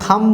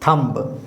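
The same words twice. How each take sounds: First: The final b sound is silent. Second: The final b sound is pronounced. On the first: The speaker calls it right. "उसको थंब बोलेंगे" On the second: The speaker calls it wrong. "ना कि थंब, है ना, बी निकलना नहीं चाहिए"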